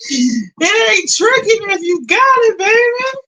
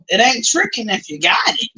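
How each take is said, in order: First: Hammed-up teasing. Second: Said in the usual way. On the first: Streamer teasing viewers about paying, high hammed-up tease. Repeats own saying, hammed up.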